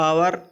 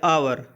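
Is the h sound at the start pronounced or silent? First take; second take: silent; silent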